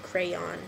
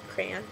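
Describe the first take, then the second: First: The word is said with two clear syllables. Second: The word is squeezed into one syllable, like cran. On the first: "I don't say Crayola, crayon" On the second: "I say it like C R A N"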